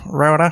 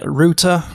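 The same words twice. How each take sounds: First: It is said with an American pronunciation. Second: It is said with a British pronunciation. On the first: The speaker calls it right. "learn the American way of saying things" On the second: The speaker calls it wrong. "mispronouncing words in the English way"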